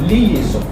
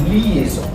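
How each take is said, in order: Both takes have the same delivery.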